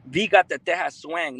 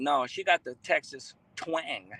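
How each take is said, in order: First: "Texas" voiced playfully as Spanish-style Tejas; playful "Tejas" pronunciation. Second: "Texas" with a clear ks, then a slow "twang". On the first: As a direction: say "Texas" as "TEH-hass", with an h sound. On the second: Pretend. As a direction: say "TEK-sus" and draw out "twang". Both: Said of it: "She got that accent".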